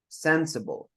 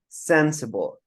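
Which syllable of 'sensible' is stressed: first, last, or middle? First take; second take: first; first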